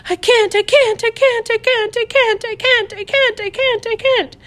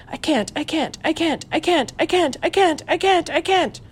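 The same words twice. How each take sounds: First: Spiral up into panic; rising panic. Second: Soft, high, panicky repetition to herself; muttered to herself. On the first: Terrified girl repeating, louder now. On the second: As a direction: chant it under her breath in terror. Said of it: "It wasn't loud at first". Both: A narrator's reading.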